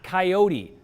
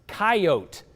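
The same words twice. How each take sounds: First: "coyote" said kai-OH-tee; three-syllable pronunciation. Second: "coyote" said KAI-oat, silent final e; two-syllable pronunciation. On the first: Viewer's email quoting the rejected way, "coyote" pronounced kai-OH-tee. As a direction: sound the final e of "coyote" as tee. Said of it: "not coyote". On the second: Viewer's email correcting the newscaster, "coyote" pronounced KAI-oat. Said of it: "please educate folks how to say". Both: Retold or imitated.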